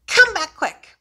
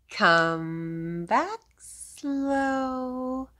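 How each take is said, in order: First: Short and louder, higher; quick. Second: Slow. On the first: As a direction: pop it out fast. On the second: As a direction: let it crawl out. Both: Shown as a demonstration.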